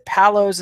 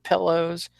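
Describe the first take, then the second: First: The Panhandle "palos" for pillows; "palos" with a flat a sound; Texan "palos". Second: Said in the usual way. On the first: Shown as a demonstration. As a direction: say "palos" as pal-ohz, not pill-ohz. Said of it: "I say palos instead of pillows". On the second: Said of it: "instead of pillows".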